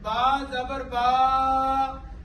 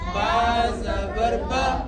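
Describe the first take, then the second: First: The final vowel is stretched out long. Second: The final vowel is short and smooth. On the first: The speaker calls it wrong. "इसको क्या कहते हैं? खींचना।" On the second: The speaker calls it right. "मारूफ किस तरह पढ़ेंगे?"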